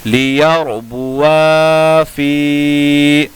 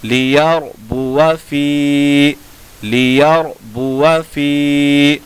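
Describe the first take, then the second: First: लियरबुआ फी with आ held long before फी; slow chanted लियरबुआ फी, alif sounded; written-form reading. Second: लियरबुआ फी with short अ before long फी; slow chanted लियरबुआ फी, alif silent; correct recitation. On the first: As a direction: stretch both आ and फी in लियरबुआ फी. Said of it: "अलिफ जायद लिखा हुआ है". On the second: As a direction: keep बुआ brief, stretch only फी. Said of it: "कैसे पढ़ेंगे?". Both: Shown as a demonstration.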